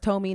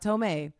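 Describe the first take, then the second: First: The name ends with an 'ee' sound. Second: The name ends with an 'ay' sound. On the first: The speaker calls it right. "I know it's Tommy" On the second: The speaker calls it wrong. "not Tomei"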